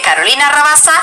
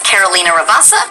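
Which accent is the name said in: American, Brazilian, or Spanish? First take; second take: Spanish; American. First: The name is said with a Spanish accent. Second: The name is said with an American accent. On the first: The role is a Spanish character. "if she's Spanish" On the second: The role is an American character. "if it's supposed to be kind of a an American character"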